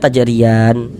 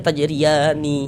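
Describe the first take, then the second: First: The word ends on a closed n sound. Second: The word ends with a final vowel after n. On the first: The speaker calls it right. "Kita baca tajriyan" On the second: The speaker calls it wrong. "Jangan dibaca tajriyani baru berhenti"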